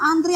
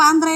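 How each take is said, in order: First: The final vowel is an 'ee' sound. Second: The final vowel is an 'eh' sound. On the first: The speaker calls it wrong. "antri apa antre" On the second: The speaker calls it right. "Yang betul antre"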